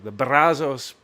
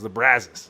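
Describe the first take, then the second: First: The name is said in a Spanish-style way. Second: The name is said in an anglicized way.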